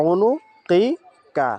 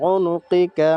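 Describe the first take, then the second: First: উনুকিকা stretched very slowly, syllable by syllable; slow drawn-out recitation. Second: Said in the usual way. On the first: Shown as a demonstration. Teacher modelling উনুকিকা for students, very slow and stretched. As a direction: hold every sound of উনুকিকা long. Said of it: "উচ্চারণটা কি". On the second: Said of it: "এভাবে আমরা প্রত্যেকটা বারবার উচ্চারণ করব".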